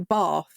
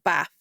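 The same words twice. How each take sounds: First: It is said in a Southern English accent. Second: It is said in a Northern English accent. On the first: "we also say bath" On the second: "instead of bath"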